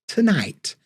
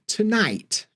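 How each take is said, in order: Both takes have the same delivery.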